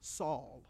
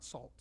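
First: Saul said without a t, softly; right name. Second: Salt with a clear final t, lower and softer; wrong name. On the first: Pastor corrects to Saul, no t, low. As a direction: say Saul, no t at the end. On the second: Pastor shows kids the wrong word, salt, softly. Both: Shown as a demonstration. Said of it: "not salt".

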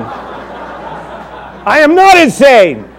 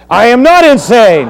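First: High, drawn out and giggling; very slow laughing denial. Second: High, loud denial through a laugh; hammed-up Paul, laughing; laughing protest. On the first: Pretend. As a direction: ham up Paul's denial while laughing. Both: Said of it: "pretending to be Paul".

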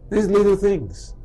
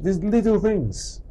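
First: Little said slowly again and stressed; slow stress on little, repeated for emphasis. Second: Slow stress on little; slow emphasis. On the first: Preacher repeats these little things to the congregation, slow and stressed. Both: Shown as a demonstration.

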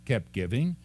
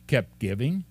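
Both takes have the same delivery.

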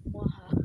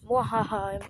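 First: Quick mock evil laugh; sneering panto villain. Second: Villain cackle, mwahaha; mock evil laugh, short and hammy; sneering panto villain. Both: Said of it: "I sound like an evil villain".

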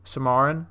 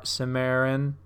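First: "Samarin" with middle vowel as in "car", rising; questioning pronunciation. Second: "Samarin" with middle vowel as in "air"; trying a pronunciation. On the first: Comic unsure of a movie title, "Samarin" asked as suh-MAR-in. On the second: Comic sounding out a movie title, "Samarin" said suh-MARE-in. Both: Shown as a demonstration.

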